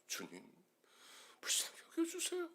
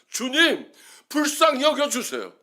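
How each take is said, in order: First: It is barely voiced, almost a whisper. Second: It is said at full, loud volume. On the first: "나중에는 목소리조차 나오지 않아서" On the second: "십사 포인트로 썼다가"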